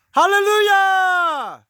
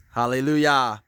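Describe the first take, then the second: First: High, slow, drawn-out chant; sung, hold it like a horn blast; sung, long held hallelujah. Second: Loud, ringing hallelujah; exclaimed praise. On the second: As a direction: call it out in praise. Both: Real, not acted. Praising God at the fence.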